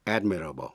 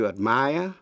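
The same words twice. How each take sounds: First: Admirable, stress on the first syllable, AD-mirable, falling; admirable, stressed at the start. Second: Admire, stress on the second syllable, ad-MIRE, rising; the verb admire, last syllable strong. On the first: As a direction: say AD-mirable, the front syllable strong. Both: Shown as a demonstration. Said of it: "nhấn mạnh vần đầu".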